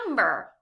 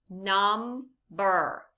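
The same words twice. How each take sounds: First: Said in the usual way. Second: NUMBER slowly as num, pause, ber; two separate beats in NUMBER; syllable by syllable. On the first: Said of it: "What word do we have?". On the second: Shown as a demonstration. Teacher gives learners a word to blend, NUMBER syllable by syllable. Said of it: "say some words in parts".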